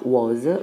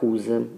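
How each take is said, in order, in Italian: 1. La parola suona come 'was'. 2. La parola suona come 'whose'. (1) "che non si pronuncia was" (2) "ma whose"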